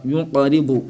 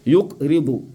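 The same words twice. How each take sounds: First: "Yunqaribu" with q released into qa; qalqala. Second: "Yukribu" with k shut before ribu; without qalqala. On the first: Teacher answers with the rule, qalqala. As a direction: echo the q in "Yunqaribu". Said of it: "Avec qalqala". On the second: Teacher repeats the wrong form, without qalqala. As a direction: stop the k in "Yukribu". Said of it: "Et non yukribu". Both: Shown as a demonstration.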